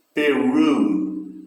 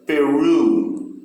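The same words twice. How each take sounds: First: Peru, RU strong with a falling tune; stress on RU. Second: Peru, pe light and RU loud; final-syllable stress on Peru. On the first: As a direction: land on RU in Peru. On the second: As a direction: punch the end of Peru. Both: Shown as a demonstration. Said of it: "o final, ru, é que tem mais força".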